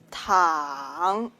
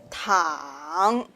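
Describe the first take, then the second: Both takes have the same delivery.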